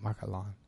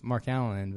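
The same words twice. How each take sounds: First: The name is said with a French pronunciation. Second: The name is said with an American pronunciation. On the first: This is how the family says the name. "but they pronounce it Mark Allen" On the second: This is how the speaker himself says the name. "My first name is Mark Allen"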